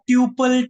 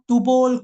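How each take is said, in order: First: The first syllable sounds like tyoo. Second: The second syllable has an o vowel.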